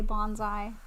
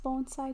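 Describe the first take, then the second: First: The middle consonant is a buzzing Z sound. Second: The middle consonant is a hissing S sound. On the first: The speaker calls it wrong. "That's with a Z" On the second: The speaker calls it right. "I like how you started saying it right finally"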